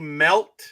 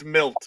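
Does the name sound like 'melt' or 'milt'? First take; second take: melt; milt. First: The vowel sounds like the one in 'melt'. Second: The vowel sounds like the one in 'milk'. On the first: The speaker calls it wrong. "I know I'm pronouncing it melt" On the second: The speaker calls it right. "Sorry, it's milt"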